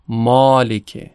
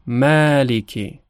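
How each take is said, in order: First: مالکه with a Persian-style rounded alef, slow; wrong Persian vowel. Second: مالکه with a bright open Arabic alef, slow; correct Arabic vowel. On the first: Teacher showing students the wrong reading of مالکه, Persian vowel. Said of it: "نمیگیم مالکه". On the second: Teacher showing students the correct reading of مالکه, open alef. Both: Shown as a demonstration.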